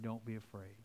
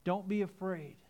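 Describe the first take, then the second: First: Much softer and lower, gently comforting; hushed Jesus comforting a grieving father; tender reassurance. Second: Said in the usual way. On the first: Retold or imitated. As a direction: say it softly, eye to eye. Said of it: "picture him looking in his eyes and saying". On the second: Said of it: "But Jesus is saying".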